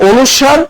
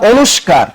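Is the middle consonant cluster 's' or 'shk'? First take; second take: s; shk. First: The middle consonant sounds like a plain 's'. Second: The middle consonants sound like 'shk'. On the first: This is the standard way to say it. The speaker calls it right. "আমি এটাকে বলি" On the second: This is how some regional students say it. The speaker calls it wrong. "Habiganj শাখার স্টুডেন্টরা এটাকে কি বলে জানো?"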